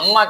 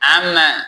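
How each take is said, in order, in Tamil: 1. முதல் உயிர் குறில். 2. முதல் உயிர் நெடில், ஆனால் மாறுது. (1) "ஆனா இது அம்மா கிடையாது" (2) "இப்படி எழுதுவோம்"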